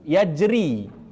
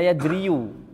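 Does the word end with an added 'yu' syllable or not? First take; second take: no; yes. First: The word ends without an added final vowel. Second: The word ends with an added 'yu' syllable. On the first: The speaker calls it right. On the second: The speaker calls it wrong.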